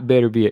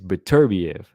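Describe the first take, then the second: First: The name is said in an American-sounding way. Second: The name is said in a non-American way. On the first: The speaker calls it wrong. "Not Beterbiev, ... the other way always sounds like an American pronunciation" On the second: The speaker calls it right. "it's Beterbiev. ... that sounds better to me"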